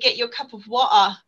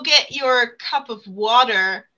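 First: It is said in a British accent. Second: It is said in an American accent. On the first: This is how the speaker talks to a British child. "my accent is different when I talk to her. Because she's so British" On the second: This is how the speaker normally talks. "I don't say go get your cup of water"

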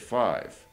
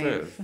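First: The vowel sounds like the word 'eye'. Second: The vowel is short, like in 'give'. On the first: The speaker calls it right. "We say five. So that's the sound of I" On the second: The speaker calls it wrong. "So we don't say fiv. Like we say have"

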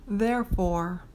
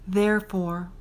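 No difference in how they are said.

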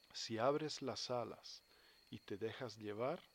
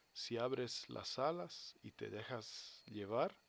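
No difference in how they are said.

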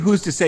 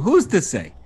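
First: It is said in a plain voice. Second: It is said in a put-on Jewish accent.

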